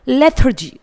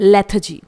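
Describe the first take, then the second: First: An American accent with the R clearly pronounced. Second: A British accent with the R left silent. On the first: "American accent में इस word को बोलेंगे तो वहाँ पर आर को उच्चारित किया जाएगा" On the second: "यहाँ पर मैं ब्रिटिश एक्सेंट का यूज़ कर रही हूँ क्योंकि यहाँ पर आर का उच्चारण नहीं किया जा रहा है"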